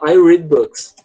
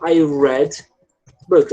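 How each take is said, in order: First: Slow «I read books» with «read» as reed; «read» stretched as reed, present tense. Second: Slow «I read books» with «read» as red; «read» said as red, past tense. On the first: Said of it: "Eu leio livros". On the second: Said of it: "eu li livros". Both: Shown as a demonstration.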